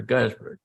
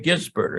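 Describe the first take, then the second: First: Gisbert tried the other way, as "GUYS-bert"; alternative pronunciation. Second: Gisbert tried with a short i, as "GIZ-bert"; tentative pronunciation. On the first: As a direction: offer "Gisbert" with a different first vowel, like "guys". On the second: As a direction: offer "Gisbert" as a short-i first guess. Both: Shown as a demonstration. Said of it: "how to pronounce this".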